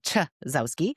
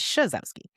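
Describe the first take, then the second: First: The name begins with a 'ch' sound. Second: The name begins with an 'sh' sound. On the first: This is how other people often say it. The speaker calls it wrong. "I get a lot of" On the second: This is how the name is really said. The speaker calls it right. "the proper pron- pronunciation is"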